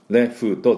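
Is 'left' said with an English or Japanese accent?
Japanese. It is said with Japanese-style syllables and vowels. The speaker calls it wrong.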